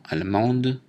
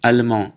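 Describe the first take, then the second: First: Allemande ending with a sounded d; feminine pronunciation. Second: Allemand ending in nasal an, silent d; allemand, louder, finishing on the nasal vowel; masculine pronunciation. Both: Shown as a demonstration. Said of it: "prononciation différente".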